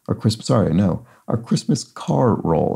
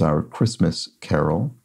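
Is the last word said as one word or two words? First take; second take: Two words; One word. First: The last part is split into car and roll. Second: The last part sounds like the single word carol. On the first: It names a slow parade of cars. The speaker calls it right. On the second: It names the ordinary Christmas song. The speaker calls it wrong.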